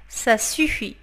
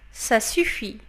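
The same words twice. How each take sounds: The two takes are said the same way.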